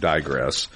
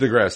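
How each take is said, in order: First: "digress" with a long "dye" opening; "digress" starting like the word die; long first vowel. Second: "Digress" with a short "dih" opening; "Digress" starting dih, not dye; short first vowel. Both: Shown as a demonstration. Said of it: "That's the emphasis wrong syllable of digress".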